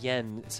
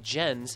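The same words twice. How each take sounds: First: The name is said with a Swedish pronunciation. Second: The name is said with an English pronunciation. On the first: The speaker calls it right. "I have actual Swedish friends that confirm that the name is pronounced Jens" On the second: The speaker calls it wrong. "he pronounces it Jens as a sort of Anglophile"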